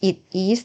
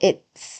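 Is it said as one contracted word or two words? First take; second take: two words; contracted. First: It is said as two separate full words. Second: It is said as one contracted word. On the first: The speaker calls it wrong. "เราจะไม่อ่านว่า" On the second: The speaker calls it right. "เขารวบแล้วให้เหลือหนึ่งคำ"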